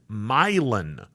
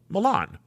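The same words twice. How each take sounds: First: The name is said the local way. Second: The name is said the Italian way. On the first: The speaker calls it right. "Down there, it's Milan" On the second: The speaker calls it wrong. "Milan, Italy, fashion capital of the world"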